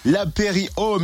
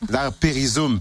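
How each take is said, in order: First: It is said with no z sound before 'ome'. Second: It is said with a z sound before 'ome'. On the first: The speaker calls it wrong. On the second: The speaker calls it right.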